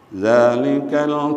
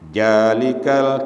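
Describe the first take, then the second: First: The word begins with a 'z' sound. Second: The word begins with a 'j' sound. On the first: The speaker calls it right. "padahal hurufnya za" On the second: The speaker calls it wrong. "dibaca jalikal kitab, ja, padahal hurufnya za"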